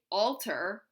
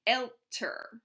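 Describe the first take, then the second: First: "alter" with a plain open A, no umlaut. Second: "älter" with the A fronted to an open E sound; umlauted A. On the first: Teacher showing the class the wrong comparative, "alter" without umlaut. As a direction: keep the A in "alter" back and open, as in alt. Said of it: "We have to umlaut that A". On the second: Teacher showing the class the right comparative, "älter" with umlauted A. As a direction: say "älter" starting like "elter", the umlaut clearly heard. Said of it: "umlaut that A and say älter". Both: Shown as a demonstration.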